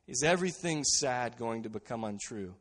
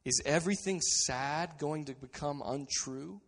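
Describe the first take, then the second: First: Laughing through the question; chuckling, delighted repetition. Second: Said in the usual way. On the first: Real, not acted. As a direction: let the joy spill into the quote. Repeats quote with a laugh. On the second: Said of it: "he looks at Gandalf and he says".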